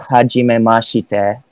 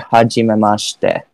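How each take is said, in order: First: The vowel after sh is fully pronounced. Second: The vowel after sh is barely pronounced. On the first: The speaker calls it wrong. "you wouldn't say hajimemashite" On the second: The speaker calls it right. "you would just say hajimemashite, because that I gets less stress"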